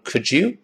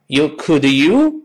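First: The d and y merge into a j sound. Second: The d and y sounds stay separate. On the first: The speaker calls it right. "读成Could you?" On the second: The speaker calls it wrong. "不能这么读"

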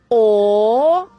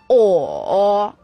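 First: The pitch rises from middle to high. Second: The pitch dips low then comes up. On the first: "二声扬" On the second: "三声拐弯"

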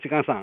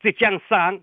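First: It is said in the Shaoxing dialect. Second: It is said in Standard Mandarin.

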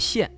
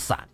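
First: The syllable is pronounced xian. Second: The syllable is pronounced san. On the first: "那字念霰" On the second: "一般可能不太了解的都会读成散"

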